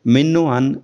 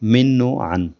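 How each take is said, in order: First: The first word has an 'i' vowel. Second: The same.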